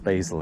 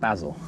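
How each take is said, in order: First: The word is said with an American pronunciation. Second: The word is said with a British pronunciation.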